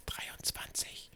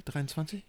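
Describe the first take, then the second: First: Slow, eerie whisper. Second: Said in the usual way. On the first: Pretend. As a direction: breathe the number like a dark secret. Ominous number, then a gasp.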